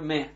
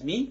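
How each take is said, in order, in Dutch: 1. Het voorvoegsel wordt uitgesproken met de klinker 'e'. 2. Het voorvoegsel wordt uitgesproken met de klinker 'i'. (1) "maar me" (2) "niet als mi"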